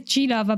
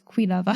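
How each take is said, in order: First: The word begins with a hard G sound. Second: The word begins with a KW sound. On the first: The speaker calls it wrong. "I always want to say G-Lava" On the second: The speaker calls it right. "it's Q and U, so it's Quilava"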